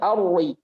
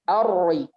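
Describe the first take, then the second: Both takes have the same delivery.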